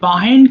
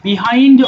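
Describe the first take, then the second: First: The first syllable has a reduced 'uh' vowel. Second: The first syllable has a clear 'ee' vowel. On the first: "অথবা বাহাইন্ড তবে বাহাইন্ড কথাটা এটা বেশি প্রচলিত" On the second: "দুই ভাবে উচ্চারণ করা যায় বিহাইন্ড"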